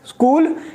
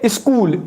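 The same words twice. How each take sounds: First: The word begins directly with the s sound. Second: The word begins with an added e vowel. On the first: "Instead of school" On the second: "they say school, e e sound"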